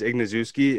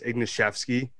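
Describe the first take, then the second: First: The surname has an English-style pronunciation. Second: The surname has a Polish-style pronunciation. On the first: The pronunciation was changed to be easier for Americans. "my grandparents like changed the pronunciation so that it's easier for Americans to say" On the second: This is the original pronunciation of the name. "it's actually like pronounced like"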